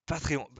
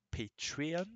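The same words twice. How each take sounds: First: Said in the usual way. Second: Patreon said the English way as /petiɔ/; English accent. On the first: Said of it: "avec l'accent". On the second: Shown as a demonstration. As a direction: say Patreon like an American, not the French /patʀiɔ̃/. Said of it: "on va dire en, avec l'accent".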